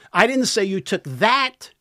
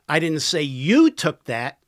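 First: The stress is on the word 'that'. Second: The stress is on the word 'you'. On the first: The listener took something else. "Took something else" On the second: Someone else took it. "Somebody else did"

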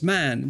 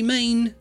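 First: The vowel sounds like the 'a' in cat. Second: The vowel sounds like the 'ay' in day. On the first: The speaker calls it right. "it's Man" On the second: The speaker calls it wrong. "Don't say Maine"

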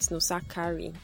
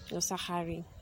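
First: The k sound is a plain k. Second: The k sound is throaty, like kh. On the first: The speaker calls it wrong. "Not Nosakare" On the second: The speaker calls it right. "the way you'd say Khan or Tchaikovsky"

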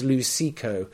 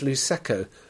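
First: The ending does not sound like Prosecco's ending. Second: The ending sounds like the ending of Prosecco. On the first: The speaker calls it right. "But it's apparently it's Luceco, L-U-C-E" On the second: The speaker calls it wrong. "I've been pronouncing this Luceco, as in Prosecco"

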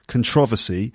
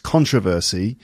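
First: The stress is on the second syllable. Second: The stress is on the first syllable. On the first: This is the traditional British form. "traditionally in British English, it's supposed to be controversy with the stress on the second syllable" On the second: This is the standard American form. "in the United States, the standard way of saying it is with the stress on the first syllable"

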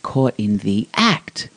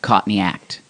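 First: It is said in an Australian accent. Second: It is said in a Boston accent.

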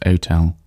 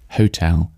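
First: The word starts without any h sound. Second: The word starts with an audible h sound.

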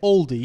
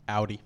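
First: It is said in an English accent. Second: It is said in an Australian accent.

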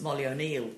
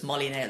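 First: The surname is said with two syllables. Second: The surname is squeezed into one syllable. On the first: "her maiden name was Molly O'Neill" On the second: "in Ireland they sort of make their own pronunciation of it, so it's Molly Nail"

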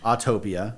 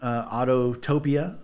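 First: The name has no extra repeated syllable. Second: The name has an extra repeated 'to' syllable. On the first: The speaker calls it right. "That's how you say it" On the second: The speaker calls it wrong. "I'm kidding"

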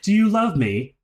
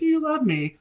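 First: It is asked sincerely and earnestly. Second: It is asked mockingly, tongue in cheek.

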